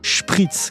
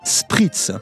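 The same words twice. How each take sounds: First: It begins with a hushing sh sound. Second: It begins with a hissing s sound. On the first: This is the German way of saying it. "se prononcent avec une chointante" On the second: This is the French way of saying it. "la graphie SP se prononce avec une sifflante"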